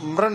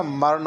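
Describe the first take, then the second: First: मरण squeezed to 'mran', pitched higher; wrong cluster. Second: मरण drawn out slowly as 'ma-ran'; full 'r'. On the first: Teacher showing the error, मरण as mran. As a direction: say मरण with 'm' and 'r' fused. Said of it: "नहीं होता". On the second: Teacher correcting for students, मरण slowly as ma-ran. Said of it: "र पूरा आएगा". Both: Shown as a demonstration.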